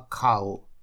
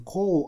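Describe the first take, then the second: First: The vowel glides like 'ow'. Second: The vowel glides like 'oh'. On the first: The speaker calls it right. "а «кау»" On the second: The speaker calls it wrong. "не «коу»"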